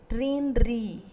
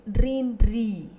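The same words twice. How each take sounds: Both takes have the same delivery.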